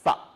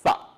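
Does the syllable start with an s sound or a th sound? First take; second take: th; th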